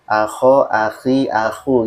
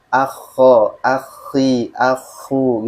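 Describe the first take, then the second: First: AKHO, AKHI, AKU with a short single KH, lightly rising; senza raddoppio. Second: AKHO, AKHI, AKU with a held double KH, falling at the end; con raddoppio. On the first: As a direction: say each lightly, one quick KH. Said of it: "huruf yang tidak bertasdid". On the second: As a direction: stop on the KH, then release each syllable. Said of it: "Kalau ada tasdidnya". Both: Shown as a demonstration.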